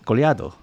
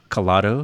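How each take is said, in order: First: The middle has a 'ly' glide sound. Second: The middle has a plain 'l' sound. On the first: "with the Elie thing" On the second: "sometimes she says like colado"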